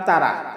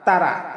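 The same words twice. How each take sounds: No difference in how they are said.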